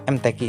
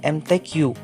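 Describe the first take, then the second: First: The letters get Indonesian letter names. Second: The letters get English-style letter names. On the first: The speaker calls it right. "seharusnya M T Q saja" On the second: The speaker calls it wrong. "dibaca ke Inggris-Inggrisan"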